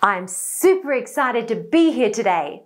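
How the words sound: The sentence is spoken at a high pitch. "Let's try a higher pitch"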